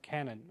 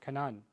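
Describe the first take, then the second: First: The name is said with English pronunciation. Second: The name is said with Arabic pronunciation.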